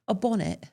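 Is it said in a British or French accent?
British. It is said in a British accent.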